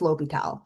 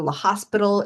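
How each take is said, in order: First: No S sound is heard before the P. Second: An S sound is heard before the P. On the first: The speaker calls it right. "It's L'Hopital" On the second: The speaker calls it wrong. "don't pronounce it La Hopital or La Hospital"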